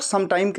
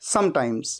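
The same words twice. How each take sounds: First: "sometime" without the final s; wrong word form. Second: "sometimes" as one word with final s; correct full word. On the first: Teacher quoting many learners' common slip, "sometime" missing its s. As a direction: say "sometime", dropping the closing s. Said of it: "sometime नहीं, ये पूरा एक word है". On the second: Teacher correcting learners with the whole word, "sometimes" ending in s. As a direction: lower "sometimes", closed on an s. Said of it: "ये पूरा एक word है". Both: Shown as a demonstration.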